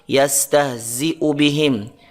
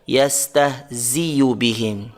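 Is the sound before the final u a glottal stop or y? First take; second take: glottal stop; y. First: A glottal stop is heard before the u vowel. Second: A y sound is heard before the u vowel. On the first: The speaker calls it right. "dengan hamzah qata' yang berharokat" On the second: The speaker calls it wrong. "bukan dengan huruf ya"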